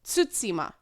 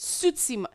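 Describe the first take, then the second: The two takes are said the same way.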